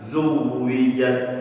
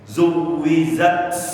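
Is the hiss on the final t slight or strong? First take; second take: slight; strong. First: The final t ends with a slight, light hiss. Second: The final t ends with a strong, heavy hiss. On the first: The speaker calls it right. "ada sedikit" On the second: The speaker calls it wrong. "nah itu berlebihan"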